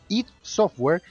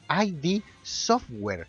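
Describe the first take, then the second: First: The name id is said as one word. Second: The name id is said as two letters. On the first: The speaker calls it right. "se pronuncia id Software" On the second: The speaker calls it wrong. "y no I D Software"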